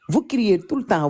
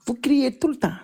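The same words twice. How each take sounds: First: Said in the usual way. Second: Soft whisper. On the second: Shown as a demonstration. Showing Cameroonian viewers how to speak softly, whispered. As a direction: whisper it, higher, no voice at all. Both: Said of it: "il faut parler doucement".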